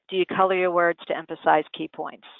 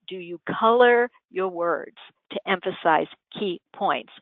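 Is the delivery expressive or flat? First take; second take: flat; expressive. First: The words are spoken evenly, without emphasis. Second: Key words are given lively, varied emphasis. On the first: The point goes right past the listener. The speaker calls it wrong. "that would just go right by you" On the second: The key points stand out to the listener. The speaker calls it right. "So I just said"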